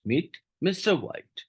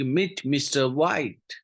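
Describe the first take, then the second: First: "mister White" lifted high and drawn out slowly, "meet" left light; stress on mister White. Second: Said in the usual way. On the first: Shown as a demonstration. Teacher showing students where the stress falls, with "mister White" pitched high and slow. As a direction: lean hard on "mister White", not on "meet". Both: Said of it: "मिस्टर व्हाइट के ऊपर उतना stress दिया".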